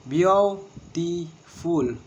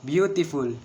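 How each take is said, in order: First: Beautiful drawn out very slowly as beau-ti-ful, first beat stressed; very slow, each syllable apart. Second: Said in the usual way. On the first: Shown as a demonstration. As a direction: spell beautiful out slowly in beats. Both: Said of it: "and three syllable".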